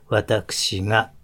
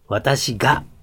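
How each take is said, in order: First: The ga is said softly through the nose. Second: The ga is said with a hard, strong g. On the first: The speech sounds soft. The speaker calls it right. "柔らかくしましょうねっていうね、私がという鼻に抜けた音" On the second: The speech sounds harsh. The speaker calls it wrong. "きつく、強く出すと、きつい言葉っていうになってしまう"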